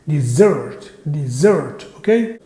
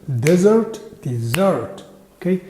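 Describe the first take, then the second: The two takes are said the same way.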